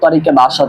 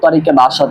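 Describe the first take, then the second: First: An e vowel links the two words. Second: An e vowel links the two words.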